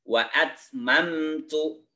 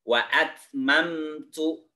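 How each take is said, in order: No difference in how they are said.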